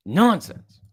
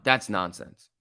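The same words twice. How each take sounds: First: "Nonsense" said high and loud in a put-on voice; mock nonsense. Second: Said in the usual way. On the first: Shown as a demonstration.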